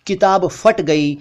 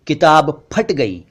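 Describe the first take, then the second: First: फट said with an f; mispronounced ph as f. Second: Slow, फट as p-hat; aspirated ph. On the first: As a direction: say फट as "fat". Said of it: "जबकि असल में ये इस तरह बोलना चाहिए". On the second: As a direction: pop the lips on फट. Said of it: "ये इस तरह बोलना चाहिए". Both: Shown as a demonstration.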